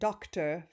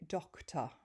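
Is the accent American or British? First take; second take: American; British. First: It is said with the r sound pronounced. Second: It is said with the r sound dropped. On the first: "for me, I pronounce my R's" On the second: "my British husband would say doctor"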